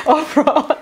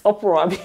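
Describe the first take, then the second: First: Saying the word through a real laugh. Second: Said in the usual way. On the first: Real, not acted. Vlogger laughing at the word uproar, amused.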